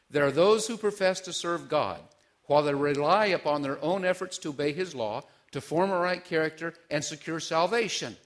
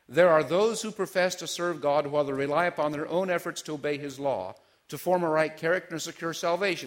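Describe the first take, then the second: First: It is read slowly. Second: It is read fast.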